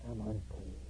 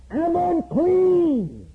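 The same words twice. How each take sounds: First: Much softer, lower echo of the leper's cry; faint fading cry. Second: High, slow, loud wail, acting a leper's warning; leper's loud cry. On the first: Retold or imitated. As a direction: let the cry die away as if far off. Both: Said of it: "he was to cry out loud".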